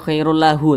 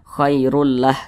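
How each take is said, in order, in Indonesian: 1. Frasa ini berakhir dengan vokal u di akhir. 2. Frasa ini berakhir dengan konsonan h. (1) "jangan khairul lahu" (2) "kita baca khairul lah"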